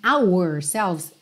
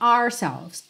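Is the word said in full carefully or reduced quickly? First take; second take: careful; reduced. First: Every sound is said fully and carefully. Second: The word is shortened and said quickly. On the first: The speaker calls it wrong. "se você tentar falar ele muito caprichado assim" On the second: The speaker calls it right. "Então você fala meio ó"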